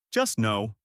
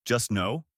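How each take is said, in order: First: "Just no." falling, firm and final; flat statement. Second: "Just no?" rising up at the end as a question; questioning rise. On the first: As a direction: state "Just no." with a dry downward close. Captain confirms the order. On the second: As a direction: ask "Just no?" with doubtful upward tune. Crew member questions the order. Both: Acted.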